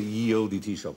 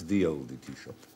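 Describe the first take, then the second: First: The first word begins with a y sound. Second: The first word begins with a th sound. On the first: The speaker calls it wrong. "you no longer have to say ye olde tea shop" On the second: The speaker calls it right. "it's the olde tea shop"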